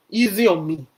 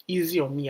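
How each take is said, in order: First: Loud pleading. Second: Softer pleading. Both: Retold or imitated. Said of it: "she looks up to heaven and say".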